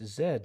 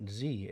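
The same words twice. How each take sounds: First: Z pronounced "zed"; Z the Canadian way, "zed"; Canadian letter name. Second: Z pronounced "zee"; Z the American way, "zee"; American letter name. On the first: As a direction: say Z as "zed", with a final D. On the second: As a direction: say Z as "zee", with no final D. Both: Shown as a demonstration. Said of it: "It's Z, not Z, exactly".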